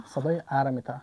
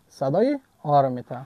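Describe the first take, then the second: First: "ا" said as an open front a; A as short "ا". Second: "آ" said as a long rounded back aw. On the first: Teacher answering which sound A makes, "ا" as front a. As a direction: answer with "ا" pronounced as in fan. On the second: Teacher answering which sound A makes, "آ" as long aw. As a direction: answer with "آ" pronounced as open aw. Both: Shown as a demonstration.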